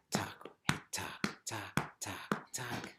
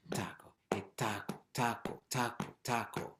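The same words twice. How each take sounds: First: Whispered, clipped taco chant, words half swallowed. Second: Every "taco" said in full and the "hey" stressed as the call; whole words clearly. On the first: Teacher chanting the rhythm in a clipped whisper. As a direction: whisper the tacos fast and clipped. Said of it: "try saying the whole word more clearly". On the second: Teacher showing the class the clearer way to chant "taco, hey". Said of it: "saying the whole word more clearly and emphasize the call". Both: Shown as a demonstration.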